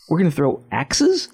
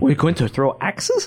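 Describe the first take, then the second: First: It is said in the speaker's normal accent. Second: It is said in a put-on European accent.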